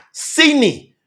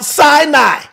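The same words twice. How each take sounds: First: Sinai said as "see-nee"; "Sinai" pronounced see-nee, not sigh-nigh; Hebrew-style pronunciation. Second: Said in the usual way. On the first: Shown as a demonstration. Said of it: "Mount Sinai, Sinai".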